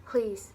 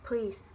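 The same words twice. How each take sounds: First: The first syllable's vowel is dropped entirely. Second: The first syllable's vowel is dropped entirely.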